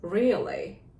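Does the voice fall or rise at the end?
fall. The pitch falls at the end. The speaker calls it right. "끝을 내리십시오"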